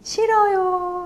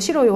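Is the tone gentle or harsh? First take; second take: gentle; harsh. First: It is said in a gentle, soft tone. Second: It is said in a harsh, rough tone. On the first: "부드럽게 싫어요 이렇게 말했고요" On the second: "거친 억양으로 싫어요 하는 조건"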